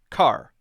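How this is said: The R at the end is strongly curled. "Americans might say"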